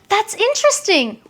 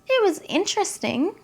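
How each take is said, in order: First: It sounds positive and enthusiastic. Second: It sounds polite but unimpressed.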